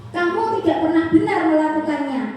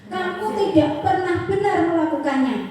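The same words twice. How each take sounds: The two takes are said the same way.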